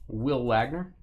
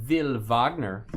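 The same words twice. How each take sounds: First: Said in the usual way. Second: Slow Will Wagner with a V, "Vill Vahgner"; German-style Wagner. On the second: Shown as a demonstration. Reading out a player card, the German "Vill Vahgner". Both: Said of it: "however you wanna say it".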